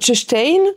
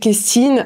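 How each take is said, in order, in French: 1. Le mot commence par un son 'ch'. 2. Le mot commence par un son 'k'. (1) "moi, je sais qu'à Groix, je vais dire tchestein" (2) "on peut le prononcer Kestine ailleurs"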